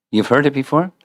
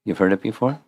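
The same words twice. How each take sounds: First: Higher, rising question; lifted voice, checking with the listener; raised repeat question. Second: Said in the usual way. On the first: Real, not acted. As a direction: ask it again, pitched up and projected. Repeats the question more insistently.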